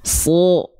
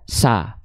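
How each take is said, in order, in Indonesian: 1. Vokalnya adalah bunyi yang tebal, seperti o. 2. Vokalnya adalah a yang jelas dan tipis. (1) "tapi dia dibaca so" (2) "dia nggak dibaca sa"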